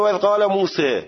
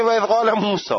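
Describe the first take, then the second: First: موسی ending in a fronted "e", "Muse"; imala reading. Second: موسی ending in a full open "aa", "Musaa"; reading without imala. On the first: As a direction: bend the final vowel of موسی from "aa" to "e". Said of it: "یکی میگه". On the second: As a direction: keep the last vowel of موسی a back "aa", never "e". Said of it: "یکی دیگه میگه". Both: Shown as a demonstration.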